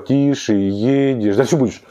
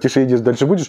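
First: The phrase is said slowly. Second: The phrase is said quickly.

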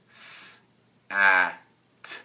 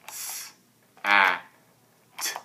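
First: The word is broken into separate sounds. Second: The word is broken into separate sounds.

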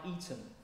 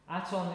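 First: The first vowel sounds like 'e'. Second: The first vowel sounds like 'a'. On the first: The speaker calls it right. "so it sounds more like Eton" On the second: The speaker calls it wrong. "Aton is not a good pronunciation of it"

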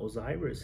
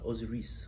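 First: The name is said the usual English way. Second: The name is said the Egyptian way. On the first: The speaker calls it wrong. "It's not Osiris" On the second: The speaker calls it right. "we have our own pronunciation to it, so we say Isis, Osiris"

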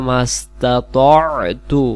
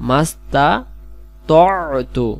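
The two takes are said the same way.

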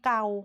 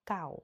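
First: The word is said on a level mid tone. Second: The word is said on a low tone. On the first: It means to scratch. "ถ้าคุณครูพูดถึงเกาเด็กๆก็ต้องคิดถึงเวลาที่เราคัน" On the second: It means old. "ใส่ไม้เอกความหมายก็เปลี่ยนอีก"

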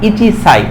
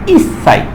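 First: The number is said in full as ichi. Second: The number is shortened and joined as is. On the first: The speaker calls it wrong. "তাহলে কিন্তু হবে না" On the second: The speaker calls it right. "এক্ষেত্রে বলতে হবে"

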